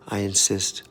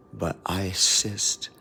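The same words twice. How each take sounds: First: Said in the usual way. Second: "insist" stretched out, very slow; "I insist" drawn out deliberately; slow insistence. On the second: Shown as a demonstration. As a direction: lean into "insist" slowly.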